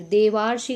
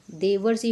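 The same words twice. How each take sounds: First: देवार्षि with a long stressed "vaa"; wrong vowel demo. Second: देवर्षि with a short "var"; correct vowel demo. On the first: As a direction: say देवार्षि as "de-vaar-shi". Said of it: "देवार्षि गलत है". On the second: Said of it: "देवर्षि होता है". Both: Shown as a demonstration.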